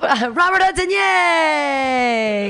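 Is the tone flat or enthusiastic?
enthusiastic. It is said with lively enthusiasm.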